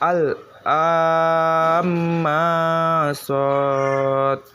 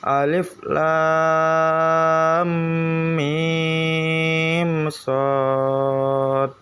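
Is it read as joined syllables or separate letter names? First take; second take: joined; separate. First: The first letters run together as one word. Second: Each letter name is said separately. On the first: The speaker calls it wrong. "jika disambung bacanya berbeda" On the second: The speaker calls it right. "bacaannya juga caranya dipisah"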